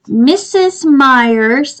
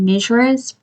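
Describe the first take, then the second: First: The name is said like 'Missus Myers'. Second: The name is said like 'Mishra's'. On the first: The speaker calls it right. "I said it right this time" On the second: The speaker calls it wrong. "I have been saying Mishra's forever"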